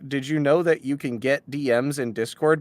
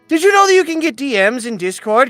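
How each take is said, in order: First: It is read in a plain, normal voice. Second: It is said in a put-on narrator voice.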